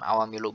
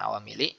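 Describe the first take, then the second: First: The word ends in a u vowel. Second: The word ends in an i vowel. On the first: "bukan awamilu" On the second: "bukan awamili"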